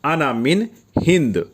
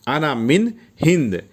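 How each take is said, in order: Both takes have the same delivery.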